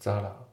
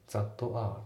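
First: The words run together with a flapped t. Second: The words are said separately with a full t. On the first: The speaker calls it right. "リンキングが起きてて、さらにT がフラッピングでL っぽくなってますね。だからザラですね。" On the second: The speaker calls it wrong. "ザッとR じゃないですね。"

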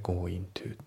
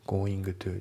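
First: The final g of going is dropped. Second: The final g of going is clearly pronounced. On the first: "G が抜けますね" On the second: "じゃなくて"

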